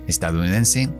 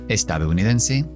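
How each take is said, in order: Both takes have the same delivery.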